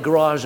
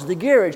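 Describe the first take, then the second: First: American garage. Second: Garage said the speaker's own way, stress at the start, ending in dge. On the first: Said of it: "That's how they say it". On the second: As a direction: say garage as GA-ridge, not the American way. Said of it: "That's how they say it, garage in America". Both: Shown as a demonstration.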